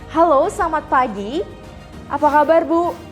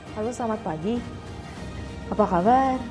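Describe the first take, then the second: First: It is said with lively, energetic intonation. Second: It is said with flat, low-energy intonation.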